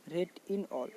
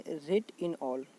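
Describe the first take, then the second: First: Said in the usual way. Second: Rate in all said slow and deliberate, every word apart; slow, spelled-out trick phrase. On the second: Shown as a demonstration. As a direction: stretch out "rate in all" so it sticks. ("rate in all" को धीरे-धीरे, हर शब्द अलग करके बोलें) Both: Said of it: "बोला जाता है".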